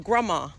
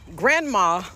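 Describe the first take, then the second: First: Grandma is said in the local Savannah way. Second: Grandma is said in a standard, non-local way. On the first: This is how locals say it. The speaker calls it right. "we say grandma" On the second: This is not how locals say it. The speaker calls it wrong. "We don't say grandma"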